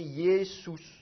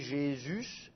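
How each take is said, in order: First: It begins with 'y' and has an 'oo' vowel. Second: It begins with 'zh' and has a French 'u' vowel. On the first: "il faudrait prononcer Yesous" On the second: "ça devient un J, et le U, il est prononcé U et pas OU"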